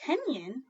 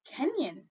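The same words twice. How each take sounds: First: Kenyan said slowly with a rising end; Kenyan asked back. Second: Kenyan said slowly, falling at the end; sounding out Kenyan. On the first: Teacher repeats Kenyan to the class, rising. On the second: Teacher slowly models Kenyan for second graders. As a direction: model the word Kenyan for young readers. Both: Shown as a demonstration. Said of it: "Kenyan is a person from Kenya".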